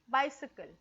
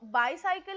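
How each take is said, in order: First: The second syllable has a short 'sih' vowel. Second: The second syllable has a long 'sigh' vowel. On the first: The speaker calls it right. "It's बायसिकल" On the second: The speaker calls it wrong. "बायसायकल is not the correct word"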